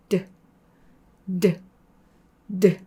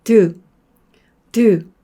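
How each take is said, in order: First: Just a puff after 드, no real vowel; weak eu vowel. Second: 드 much louder with a full 으; strong eu vowel. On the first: Teacher demonstrating a light 드. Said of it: "좀 약하게". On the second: Teacher contrasting a strong 드. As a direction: punch 드 with a heavy vowel. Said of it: "다시 강하게 하면". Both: Shown as a demonstration.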